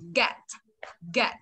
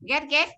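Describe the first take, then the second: First: It is said with the tongue pulled back. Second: It is said with the tongue pushed forward. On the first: The speaker calls it right. "thu lưỡi lại này" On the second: The speaker calls it wrong. "Ghét thò lưỡi ngoài này"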